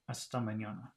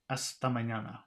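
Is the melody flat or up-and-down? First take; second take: flat; flat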